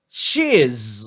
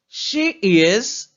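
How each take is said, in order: First: The words are shortened into one syllable. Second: Two separate full words are said. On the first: "sous besoin de dire plus rapide, c'est-à-dire dans une forme qui plus courte, ou dit she's" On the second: "l'autre dit she is"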